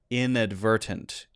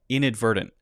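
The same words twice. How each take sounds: First: Every T is pronounced as a clear T. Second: The middle T is a light D; final T stopped. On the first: "if you say it with all the T sounds" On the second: "with the light D and the stop T sound at the end"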